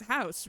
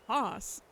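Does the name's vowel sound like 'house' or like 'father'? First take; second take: house; father. First: The name is said like the word 'house'. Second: The name is said with an 'ah' vowel. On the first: The speaker calls it wrong. "it's House, right? Because it's German" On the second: The speaker calls it right. "It's pronounced Haas"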